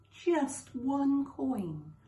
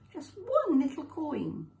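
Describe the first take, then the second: First: One drawn out very slowly; slowed right down on one coin; stress on one. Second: One lifted high and louder; raised, emphatic one; stress on one. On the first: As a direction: linger on the word one, slow and heavy. Stressing how small the debt. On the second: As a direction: push up on one in one little coin. Repeating to stress the small debt. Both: A narrator's reading.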